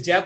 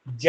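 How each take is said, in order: First: ज said as a buzzing z, like English zed; z sound. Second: ज said as a plain hard j, like English jay; hard j sound. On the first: Teacher showing students how to read the dotted ज, buzzing z. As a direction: give ज a clear z sound, not j. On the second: Teacher showing students the wrong way to read ज, plain hard j. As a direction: say ज with a clear j, not z. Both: Shown as a demonstration. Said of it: "इस ज को बोलेंगे ज".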